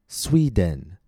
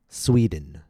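First: The second syllable has a full, long vowel. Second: The second syllable has a short, reduced vowel. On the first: The speaker calls it wrong. "someone with an accent might say" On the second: The speaker calls it right. "repeat the words with the reduced vowels"

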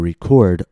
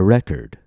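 First: The stress falls on the second syllable. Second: The stress falls on the first syllable. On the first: It is a verb: to capture sound. "the noun and the verb, in one sentence, and you'll hear the difference in syllable stress" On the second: It is a noun: a music album. "If I use R-E-C-O-R-D as a noun, I'm going to put the stress on the first syllable"

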